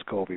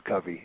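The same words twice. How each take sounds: First: Covey with a long o in the first syllable; Covey as COH-vee. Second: Covey with a short u in the first syllable; Covey as CUV-ee. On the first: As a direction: pronounce Covey like "cove" plus "ee". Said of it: "Everyone, everyone pronounces Covey". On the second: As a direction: pronounce Covey to start like "cover". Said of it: "is how you pronounce it". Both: Shown as a demonstration.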